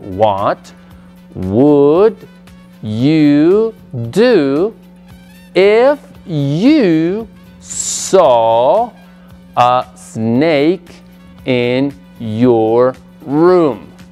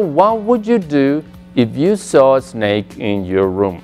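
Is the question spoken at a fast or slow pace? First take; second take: slow; fast. First: The question is spoken slowly and deliberately. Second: The question is spoken at a normal, quicker pace.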